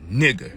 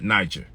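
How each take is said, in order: First: The word begins with a hard G sound. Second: The word begins with a soft J sound. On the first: The speaker calls it right. "G, not J. So it'd be" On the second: The speaker calls it wrong.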